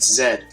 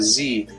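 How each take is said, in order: First: The letter is said the non-American way, zed. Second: The letter is said the American way, zee.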